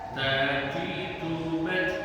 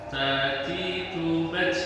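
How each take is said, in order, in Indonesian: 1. T di akhir diucapkan sebagai t biasa. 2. T di akhir diakhiri desis seperti ch. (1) "yang betul seperti tadi" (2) "kesalahan yang sering itu huruf ta itu ada s-nya atau ada ts"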